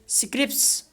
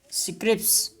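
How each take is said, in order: First: One consonant in the final cluster is dropped. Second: The same.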